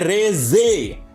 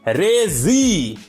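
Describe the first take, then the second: First: The name ends with an 'eh' vowel. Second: The name ends with an 'ee' vowel. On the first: The speaker calls it right. "इसको प्रोनाउंस किया जाता है रेजे" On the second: The speaker calls it wrong. "Hindi डब में प्रोनाउंस किया गया है रेजी"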